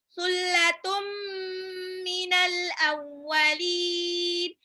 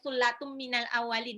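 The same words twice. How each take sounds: First: The phrase is recited slowly with the nasal held. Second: The phrase is recited quickly without holding the nasal. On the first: The speaker calls it right. "harus gunnah ditahan" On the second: The speaker calls it wrong. "nggak boleh secepat itu"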